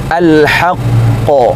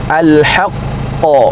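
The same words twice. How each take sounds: Both takes have the same delivery.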